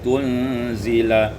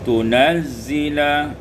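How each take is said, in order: First: The n is closed and z is single. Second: The n has a vowel and z is doubled.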